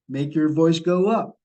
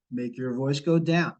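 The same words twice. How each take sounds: First: Voice going up. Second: Voice going down. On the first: Coaching callers, voice rising. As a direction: pitch lifting on up. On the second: Coaching callers, voice falling. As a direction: pitch dropping on down. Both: Shown as a demonstration.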